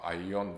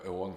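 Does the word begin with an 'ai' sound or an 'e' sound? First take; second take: ai; e. First: The word begins with an 'ai' diphthong. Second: The word begins with a plain 'e' vowel. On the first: This is the ancient Greek pronunciation. "«айон» в древнегреческом" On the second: This is the Byzantine pronunciation. "«эон» в таком византийском произношении"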